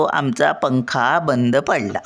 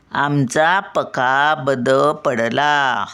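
First: "पंखा" with a clear "ng" before "kha"; अनुस्वारासह उच्चार. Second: "पका" with no nasal, whole sentence slow; अनुस्वाराशिवाय उच्चार. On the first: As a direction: sound the nasal in "पंखा" at normal sentence pace. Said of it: "मग आपण काय बोलतो". ("पंखा" मधला अनुस्वार स्पष्ट) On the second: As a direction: dictate slowly, saying "पका" without its "ng". Slow dictation without the anusvara. ("पका" अनुस्वार न लावता, सावकाश) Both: Shown as a demonstration.

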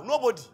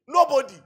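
First: Said in the usual way. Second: Loud, laughing repeat of the punchline; gleeful loud punchline. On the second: Real, not acted. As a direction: throw the word out through a laugh.

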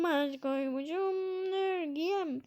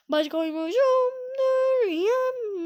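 First: Softer, slow, mock-tearful sung line; mock crying. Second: Slow sung line. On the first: Gamer re-singing the line in a mock-weepy voice. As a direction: sing it again as if about to cry. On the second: Acted. Gamer singing along to the game music slowly.

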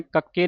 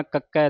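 First: ਕੱਕੇ ending in a closed "e"; wrong vowel ending. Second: ਕੱਕੈ ending in an open "ai". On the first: Teacher shows what to avoid, ਕੱਕੇ with closed final "e". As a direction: say ਕੱਕੇ with a narrow final "ay" sound. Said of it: "ਨਹੀਂ ਕਹਿ ਦੇਣਾ". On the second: Teacher shows the correct letter name, ਕੱਕੈ with open final "ai". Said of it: "ਦਲਾਵਾਂ ਦੇ ਨਾਲ". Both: Shown as a demonstration.

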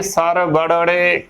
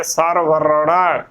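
First: ਸਰ ਵੜੜੇ with doubled ੜ and final -e; mispronunciation demo. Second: ਸਰ ਵਰੜਾ slow, r then ੜ, ending in long aa; correct joined pronunciation. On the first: Teacher showing what not to say, mispronounced ਸਰ ਵੜੜੇ. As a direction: say ਸਰ ਵੜੜੇ, no r in the middle. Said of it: "ਗਲਤ ਉਚਾਰਨ ਹੋਵੇਗਾ". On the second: Teacher modelling the joined word, slow correct ਸਰ ਵਰੜਾ. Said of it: "ਇਕੱਠੇ ਹੀ ਉਚਾਰਨ ਕਰਨਾ ਹੈ". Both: Shown as a demonstration.

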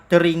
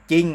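First: จริง misread as "ja-ring"; ออกเสียง ร เรือ. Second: CHING for จริง, silent r; ควบไม่แท้. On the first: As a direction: sound the r in จริง, as two syllables "ja-ring". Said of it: "จะอ่านว่า จริง อย่างนี้ได้ไหม ไม่ได้". (อ่าน จริง ผิดเป็น "จะ-ริง") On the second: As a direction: say จริง as "jing", dropping the r. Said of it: "จะออกเสียงแค่ จอจาน". (อ่าน จริง ว่า "จิง" ไม่ออกเสียง ร) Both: Shown as a demonstration.

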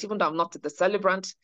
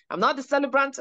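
First: Said in the usual way. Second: "not" lifted high, teasing insistence; playful emphasis. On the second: Shown as a demonstration. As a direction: lean on "not" with a playful higher pitch. Playful repeat of a denial.

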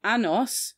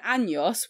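First: "Anos" with a plain n; "Anos" pronounced without the tilde; missing ñ. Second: "años" with a ny sound; "años" pronounced with the tilde; correct Spanish ñ. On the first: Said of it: "without the accent means anus". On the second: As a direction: say "años" as AN-yos. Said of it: "with the accent means years". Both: Shown as a demonstration.

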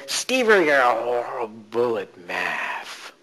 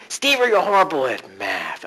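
First: Very slow, drawn-out critic voice. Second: Said in the usual way. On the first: Shown as a demonstration. Coach demonstrating the old voice, drawn out slowly. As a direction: stretch each word out slowly. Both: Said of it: "start the voice".

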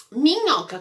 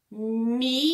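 First: Said in the usual way. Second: "minhoca" as three separate syllables, mi, nho, ca; split into syllables. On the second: Shown as a demonstration. Teacher showing how the word begins, "minhoca" sounded out syllable by syllable. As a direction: pause between each syllable of "minhoca". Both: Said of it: "Minhoca começa com a sílaba".

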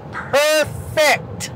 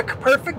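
First: "perfect" drawn out slowly in two beats; emphatic PERFECT. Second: Said in the usual way. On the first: Shown as a demonstration. Storyteller stressing the exact angle, slow emphatic "perfect". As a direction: stretch each syllable of "perfect". Repeats word with exaggerated emphasis.

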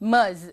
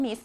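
First: "เมอร์ส" ending in a buzzing Z sound; voiced Z ending. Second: Said in the usual way. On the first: Shown as a demonstration. Teacher showing students how Ms. is read, "เมอร์ส" with a final Z. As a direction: say "เมอร์ส" as Miz, voicing the final consonant as Z. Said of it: "ออกเสียงเป็นตัว Z". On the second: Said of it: "ไม่ได้อ่านว่า miss".

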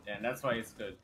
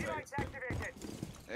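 First: Said in the usual way. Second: "That's why it's good" stretched very slowly, pitched much higher; mock-preach "why" long and high; drawn-out mock emphasis. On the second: Shown as a demonstration. Repeats line, second drawn out.

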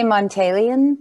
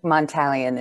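First: Montalion with a long "tay" in the middle; own pronunciation. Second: Montalion with a short flat "a", as in "tally"; preferred alternative pronunciation. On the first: Speaker tells host how she says her surname, Montalion pronounced with "tay". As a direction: say Montalion as "mon-TAY-lee-un". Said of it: "I say Montalion". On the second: Speaker favours host's version of her surname, Montalion pronounced with "tal". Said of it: "is the better version". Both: Shown as a demonstration.

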